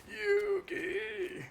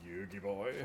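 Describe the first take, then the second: First: Very high, desperate call of the name; Grandpa cry. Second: Pegasus voice. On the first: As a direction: Grandpa yelling from the Shadow Realm. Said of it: "Grandpa came back ... take over your voice". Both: Retold or imitated.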